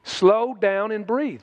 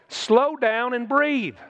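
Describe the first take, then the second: First: Slow, calm repeat. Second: Slow, calm demonstration. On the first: Preacher repeating the advice to the congregation, slow and calm. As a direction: let it settle, slowly. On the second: Preacher showing the congregation how to slow down, slow and calm. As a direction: breathe it out slowly. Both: Shown as a demonstration.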